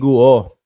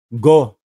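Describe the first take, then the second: First: The u sound is pronounced in the name. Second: The u is silent, so it sounds like go. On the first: The speaker calls it wrong. "ang pronunciation niyan hindi Guo" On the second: The speaker calls it right. "Silent U"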